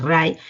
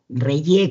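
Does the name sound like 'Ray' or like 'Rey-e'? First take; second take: Ray; Rey-e. First: The name is said like English 'Ray'. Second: The name is said in its commonly heard form. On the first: This is the proper pronunciation. The speaker calls it right. "pero es Ray" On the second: This is how people commonly say it. The speaker calls it wrong. "o Reye que le dicen"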